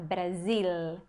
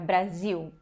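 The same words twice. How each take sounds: First: The final L is a clear L sound. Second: The final L sounds like a U vowel. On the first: "como o pessoal do sul do Brasil fala" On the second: "A gente fala um som de U, como eu falei agora"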